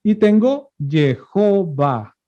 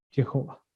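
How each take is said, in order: First: Jehová spelled out slowly, syllable by syllable; slow teaching read of Jehová for the class; slow demonstration. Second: Jehová repeated almost under the breath; quiet afterthought repeat of Jehová; soft echo. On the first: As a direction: build the word Jehová slowly from its vowels. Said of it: "la bajo aquí de la letra bab". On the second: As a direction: let Jehová fall away softly after the demo. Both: Shown as a demonstration.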